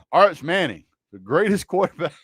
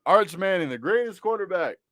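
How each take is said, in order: First: Mock praise. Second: Sarcastic praise, barely holding it together; tongue-in-cheek tribute; mock praise. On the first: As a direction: hype him up with a smirk you can't hide. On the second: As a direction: say it like a joke you can't keep straight. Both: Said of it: "I can't even say it with a straight face".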